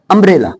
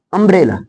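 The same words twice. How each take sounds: The two takes are said the same way.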